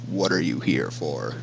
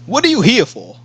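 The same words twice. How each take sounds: First: It is said in a deep voice. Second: It is said in a normal voice. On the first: The speaker calls it right. "how do I want to make deep voice?" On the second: The speaker calls it wrong.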